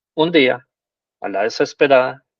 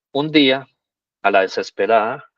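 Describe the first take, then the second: No difference in how they are said.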